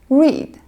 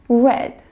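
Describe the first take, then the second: First: The vowel is long, rhyming with 'need'. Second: The vowel is short, rhyming with 'bed'. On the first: It is the present form of the verb. "this word is pronounced read, like I read books" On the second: It is the past form of the verb. "the past form of the word read"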